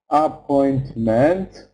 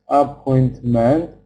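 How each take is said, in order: Both takes have the same delivery.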